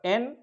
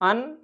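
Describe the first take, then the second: First: The vowel is full and strong. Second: The vowel is reduced and weak. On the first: The thing is given great importance. "जब हम उस वस्तु को बहुत महत्व देते हैं" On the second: The thing is not given much importance. "जब वीक फार्म होती है"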